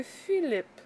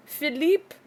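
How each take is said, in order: First: Said in the usual way. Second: PHILIPPE as "fee-LEEP", pitched up, questioning; French pronunciation. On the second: Shown as a demonstration. Weather vlogger guessing a storm name, French "fee-LEEP". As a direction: try "Philippe" the French way, stressed long "ee". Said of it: "is that French".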